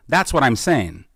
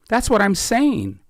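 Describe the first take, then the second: First: Said in the usual way. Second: Much higher pitch, stress on what, slowed; emphatic. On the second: Real, not acted. Guest pressing his point to the host, emphatic high stress on "what". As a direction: lean hard on "what" in "That's what I'm saying", high and slow.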